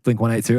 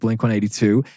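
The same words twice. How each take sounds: First: It is said in an Australian accent. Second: It is said in an American accent.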